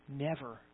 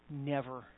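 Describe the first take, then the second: Both takes have the same delivery.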